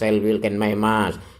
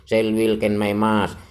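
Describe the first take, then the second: Both takes have the same delivery.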